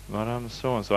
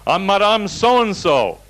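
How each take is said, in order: First: Quiet puzzled echo. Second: High, slow, haughty mock announcement; acted indignant patient. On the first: Retold or imitated. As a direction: echo the name under your breath. Speaker echoes the name to himself. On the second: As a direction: imitate an affronted woman proclaiming her name. Patient indignantly gives her name.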